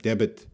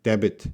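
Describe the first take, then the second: First: A B sound is pronounced in the middle. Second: The same.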